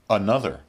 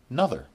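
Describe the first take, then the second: First: It is said in a somewhat reduced form. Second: It is said in its most reduced form.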